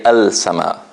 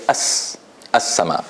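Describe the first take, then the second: First: "al sama" with the l sounded; lam pronounced. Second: "as sama" with no l, straight into s; lam silent. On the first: Teacher showing students what not to say, lam pronounced. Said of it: "I don't say al sama". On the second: Teacher showing how the word is read, lam silent. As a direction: hold the doubled s in "as sama". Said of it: "I say as, as sama". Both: Shown as a demonstration.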